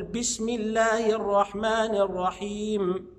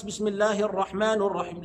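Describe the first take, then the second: First: Slow recitation, "الرحمن" ended on i; kasra recitation. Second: "الرحمن" ended on u, not i; wrong case vowels. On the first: Shown as a demonstration. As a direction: draw it out, saying ar-rahmani for "الرحمن". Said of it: "يبقى هنقول". (تلاوة متأنية بكسر نون "الرحمن") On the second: Retold or imitated. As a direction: say "الرحمن" as ar-rahmanu, in passing. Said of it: "لا، لا، لا، ما ينفعش". (نطق "الرحمن" بالضم خطأً)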